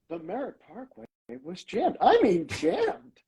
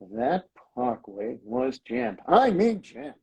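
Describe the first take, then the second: First: It sounds like something great, delighted. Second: It sounds like an annoyed complaint.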